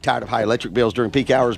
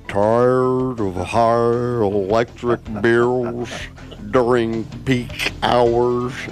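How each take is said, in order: First: It is said fast. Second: It is said slowly.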